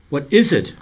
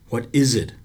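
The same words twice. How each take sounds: First: Louder, pressing question; insisting. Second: Said in the usual way. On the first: A narrator's reading. Boy presses the silent lifeguard for an answer, insisting loudly. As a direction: demand an answer. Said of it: "I insisted". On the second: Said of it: "I asked".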